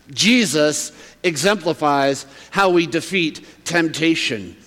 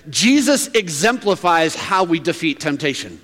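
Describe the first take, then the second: First: "Jesus exemplifies how we defeat temptation" slowly, with pauses between phrases; deliberate emphasis. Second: Said in the usual way. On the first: Real, not acted. Restates proposition slowly for emphasis.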